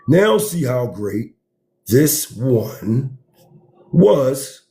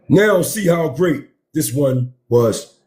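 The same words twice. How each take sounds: First: It is read at a slow pace. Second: It is read at a quick pace.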